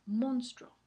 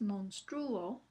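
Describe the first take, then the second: First: Monstruo as MONS-truo, two syllables; correct diphthong. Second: Monstruo slowly as mons-TRÚ-o; wrong hiatus version. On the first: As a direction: stress MONS in monstruo, drawn out. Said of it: "pero así no se pronuncia". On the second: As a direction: stress the u of monstruo, apart from o. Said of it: "No es monstruo". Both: Shown as a demonstration.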